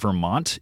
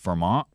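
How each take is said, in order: First: The t is fully pronounced. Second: The t is replaced by a glottal stop. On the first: "the state we live in is not Vermont" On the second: "It's Vermont"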